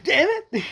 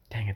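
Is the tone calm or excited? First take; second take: excited; calm. First: It is said with loud excitement. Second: It is said in a calmer put-on voice.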